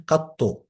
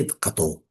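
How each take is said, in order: First: قطو with a held, doubled t and final u. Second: قطو with one short, light t; lightened ط. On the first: Teacher showing the classical form, قطو with doubled t. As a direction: say قطو as qat-tu, tense double consonant. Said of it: "وتشديد الطاء". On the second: Teacher showing a variant form, قطو with single light t. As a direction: say قطو as qa-tu, no doubling. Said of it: "تخفيف الطاء". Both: Shown as a demonstration.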